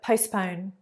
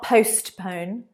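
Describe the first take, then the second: First: The middle T sound is weak and soft. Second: The middle T sound is strong and clear. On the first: The speaker calls it right. "The T is not very strong there" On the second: The speaker calls it wrong. "It's not postpone"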